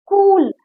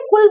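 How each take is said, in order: First: कूल with the u stretched long; long drawn-out u. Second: कुल with a short, easy u. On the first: Teacher showing the big matra, कूल with long u. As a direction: draw out the vowel in कूल. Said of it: "मतलब ज्यादा लंबी खिंचती जा रही है". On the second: Teacher showing the short vowel, कुल with short u. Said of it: "आराम से बोला". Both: Shown as a demonstration.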